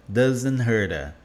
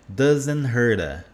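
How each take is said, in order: Both takes have the same delivery.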